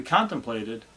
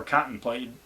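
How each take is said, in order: First: Said in the usual way. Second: "contemplated" in a quirky homemade pronunciation; own quirky pronunciation. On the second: Shown as a demonstration. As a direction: playfully mispronounce "contemplated". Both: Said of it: "as I say sometimes".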